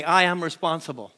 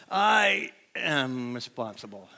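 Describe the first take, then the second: First: Call and response line. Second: Slow, soft, defeated; falling-apart version. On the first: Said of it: "Say that with me". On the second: Preacher showing how it sounds when life falls apart, slow defeated murmur. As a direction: say it slowly and softly as if crushed. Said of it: "a little harder to say when things are falling apart". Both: Shown as a demonstration.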